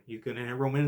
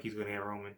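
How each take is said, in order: First: Said in the usual way. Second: Quiet, tense under-the-breath prediction; anxious mutter. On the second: Retold or imitated. Fan to himself, bracing for the hit, quiet and tense. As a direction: mutter it to yourself, dreading it.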